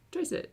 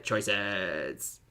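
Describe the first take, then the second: First: "Choices." squeaked up very high; squeaky choices. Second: "Choices." dropped low and soft. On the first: Squeaky "Choices." echoing himself for the stream chat. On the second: Low soft "Choices." to the stream chat. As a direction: sink the word "Choices." down low. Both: Shown as a demonstration.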